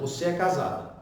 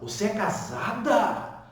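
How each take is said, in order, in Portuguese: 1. Está com entonação de afirmação. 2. Está com entonação de pergunta. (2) "Aí botei uma interrogação no final"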